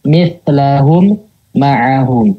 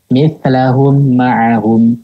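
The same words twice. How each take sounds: First: A pause breaks the two m sounds apart. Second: The m is plain, with no held nasal hum. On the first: "memberikan jeda di antara kedua mim" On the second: "Mimnya dibaca jelas, tidak digunakan. Itu yang keliru"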